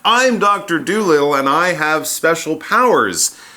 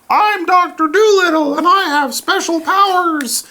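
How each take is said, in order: First: It is said in a normal speaking voice. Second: It is said in a put-on parrot voice. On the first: "That was me" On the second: "that was my talking parrot voice"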